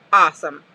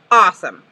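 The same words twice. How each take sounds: The two takes are said the same way.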